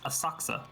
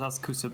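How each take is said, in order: First: The middle 'ku' is dropped, like 'Asaksa'. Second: The middle 'ku' is fully pronounced. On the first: The speaker calls it right. "but apparently it's" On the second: The speaker calls it wrong. "I also used to think it was pronounced"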